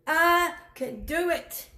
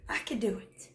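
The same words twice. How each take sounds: First: I could do it, said aloud and slower with weight on I; confident spoken statement; firm emphasis. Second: Unvoiced whisper, soft and close; quiet whispered admission. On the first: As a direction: plant I firmly and slow down. Whisper repeated aloud with weight. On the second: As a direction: breathe it like a secret. Whispered aside, then repeated aloud. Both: Real, not acted.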